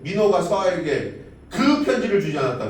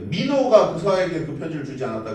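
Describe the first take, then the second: First: The stress falls on the word 편지를. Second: The stress falls on the word 민호가. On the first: Something was given, but it was not the letter. "민호가 서아에게 뭐가 주길 줬는데 편지를 주진 않은 거지" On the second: It was this particular person who did not give the letter. "누군가 편지를 주지 않긴 했는데 민호가 안 준 거고"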